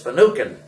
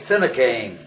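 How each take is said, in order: First: The name is said with an Irish pronunciation. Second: The name is said in an everyday, non-Irish way. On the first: "an Irishman refers to that as Finucane" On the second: "you and I would probably pronounce it Finucane"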